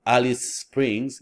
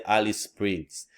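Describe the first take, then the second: First: "Alice Springs" slow, each S sounded on its own; unlinked words. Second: "Alice Springs" run together on one shared S; linked words. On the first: Teacher showing what to avoid, words unlinked. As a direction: keep "Alice" and "Springs" distinct, slowly. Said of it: "Instead of saying Alice is". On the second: Teacher showing learners chunking, words linked as one. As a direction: glide from "Alice" straight into "Springs". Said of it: "we just say Alice Springs". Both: Shown as a demonstration.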